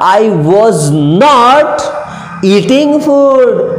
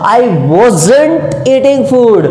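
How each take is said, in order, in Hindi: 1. 'was not' को दो पूरे शब्दों की तरह बोला जाता है। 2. 'was not' को एक छोटे शब्द में संक्षिप्त करके बोला जाता है।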